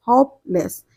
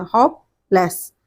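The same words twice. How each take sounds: First: Said in the usual way. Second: hopeless spoken slowly as two open syllables, होप then लेस; teacher slowly sounding out hopeless; two clear syllables. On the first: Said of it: "ये टू syllable है". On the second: Shown as a demonstration. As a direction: open the mouth twice for hopeless. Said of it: "हमारा मुंह दो बार हम खोलते हैं".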